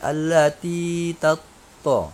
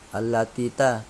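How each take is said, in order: First: The syllable after allati sounds like a stressed to. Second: The syllable after allati sounds like ta. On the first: The speaker calls it right. "tapi allati tatto" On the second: The speaker calls it wrong. "Jangan bacanya allati ta"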